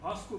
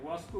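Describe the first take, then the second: First: The word begins with a bh sound. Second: The word begins with a v sound. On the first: The speaker calls it wrong. "वो भास्को बोल रहे थे" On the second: The speaker calls it right. "वास्को की बजाय"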